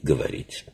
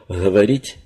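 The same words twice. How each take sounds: First: The first consonant is a plosive, like [g]. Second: The first consonant is a fricative, like [ɣ]. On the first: This is the standard literary form. "в отличие от взрывного «г» в других диалектах или в литературном языке" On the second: This is the southern Russian dialect form. "щелевой звук «г» встречается в южнорусских диалектах"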